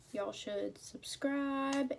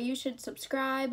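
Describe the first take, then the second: First: Slow, drawn-out country twang; country accent. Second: Said in the usual way. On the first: Real, not acted. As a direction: let a country accent slip in, slowly. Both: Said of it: "I sound like I got a country accent".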